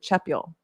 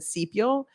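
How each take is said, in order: First: The name begins with a ch sound. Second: The name begins with an s sound. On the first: This is how an older relative said the name. "my grandfather always pronounced it chepial" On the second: This is how the speaker has always said the name. "I've always said sepial"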